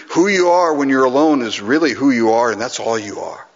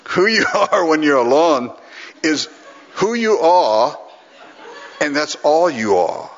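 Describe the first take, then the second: First: Said in the usual way. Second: Hammed-up Scottish accent, higher and emphatic; Alistair. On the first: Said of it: "Same thing I said". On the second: Practising a colleague's line on the crowd, Scottish accent. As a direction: imitate a Scottish preacher's measured pronouncement. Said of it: "gonna get it down pretty quick".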